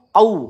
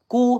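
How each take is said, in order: First: It starts with a pressed k deep in throat. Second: It starts with an ordinary front k sound. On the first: The speaker calls it right. "Kita tekan ya, pangkal lidah naik" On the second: The speaker calls it wrong. "Kalau kulu itu huruf kaf ya"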